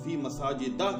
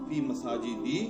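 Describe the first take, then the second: First: The last word ends with an 'a' vowel. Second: The last word ends with an 'i' vowel. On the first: The speaker calls it right. "उसके ऊपर फिर ज़बर आएगी" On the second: The speaker calls it wrong. "नहीं कहेंगे"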